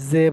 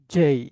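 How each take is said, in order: First: জে as a short "ze", no glide; common local J. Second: জেই with "j" and a gliding "ay"; corrected English J. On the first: Teacher shows how everybody says J, local pronunciation. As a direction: say জে with a buzzy z-like start. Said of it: "এটাকে আমরা সবাই". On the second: Teacher shows how to say J, corrected pronunciation. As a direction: say জেই firmly as "jay". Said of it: "কি বলবো". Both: Shown as a demonstration.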